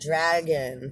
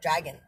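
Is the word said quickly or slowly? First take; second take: slowly; quickly. First: The word is drawn out slowly. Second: The word is said quickly.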